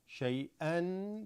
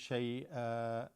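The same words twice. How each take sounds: First: The word ends with an n sound. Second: The word ends with a long vowel.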